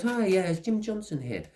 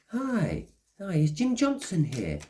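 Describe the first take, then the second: First: High, cheery stranger asking for Jim Johnson; stranger at the door. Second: High, cheery voice of a stranger at the door. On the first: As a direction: pitch it up like a polite stranger at the door. Stranger knocking, retold again. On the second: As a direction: chirp it up like a polite stranger asking at the door. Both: Retold or imitated.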